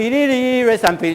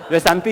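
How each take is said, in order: First: Slow, higher sung line; sung by the Sherpa. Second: Said in the usual way. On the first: Retold or imitated. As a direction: croon it slowly like a mountain guide's song. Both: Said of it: "他说他唱歌给我听啊".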